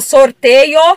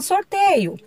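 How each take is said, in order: First: It is said with an Italian-sounding accent. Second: It is said in a relaxed, everyday Brazilian way. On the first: This is how congregation members say it when talking about church matters. "aquele jeitão italiano" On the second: This is how people normally say it in conversation. "mas a gente acaba falando sorteio"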